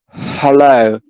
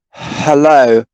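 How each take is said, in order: First: It starts with a soft breathy h sound. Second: It starts with a soft breathy h sound.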